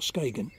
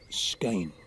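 First: The g is said as a hard g. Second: The g is said as a y sound. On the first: The speaker calls it wrong. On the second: The speaker calls it right.

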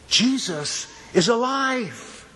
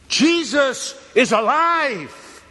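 First: It is said more loudly. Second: It is screamed at full volume.

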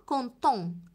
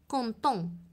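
Both takes have the same delivery.

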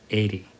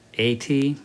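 First: It is said casually, with relaxed sounds. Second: It is said carefully, each sound distinct. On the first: "but normally we'd say 80" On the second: "80 is okay"

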